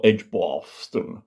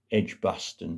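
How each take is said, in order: First: Edgbaston said slowly with a long posh "ar" in the middle; posh pronunciation of Edgbaston. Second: Said in the usual way. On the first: Shown as a demonstration. Naming the doctor's home as they say it, Edgbaston in mock-posh long vowels. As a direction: draw out the middle of Edgbaston as "Edge-BAR-ston", mock-posh. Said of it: "as they say". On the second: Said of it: "or Edgbaston, as they say".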